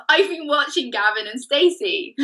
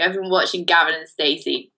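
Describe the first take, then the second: First: High, lilting Welsh accent. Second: Said in the usual way. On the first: Shown as a demonstration. Co-host confessing a TV binge to the host, Welsh accent. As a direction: lean into a playful Welsh lilt. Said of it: "my Welsh accent has returned". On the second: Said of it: "my Welsh accent now disappears again".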